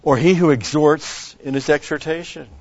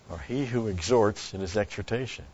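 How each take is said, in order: First: Verse read out loud and high, stressing he; loud emphatic reading. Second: Said in the usual way. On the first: Real, not acted. Pastor reading verse aloud to congregation, loud proclaiming.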